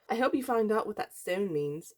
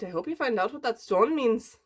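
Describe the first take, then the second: First: It is said in the speaker's plain voice. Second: It is said in an Irish accent. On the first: "I forgot her accent" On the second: "That's such a bad Irish accent"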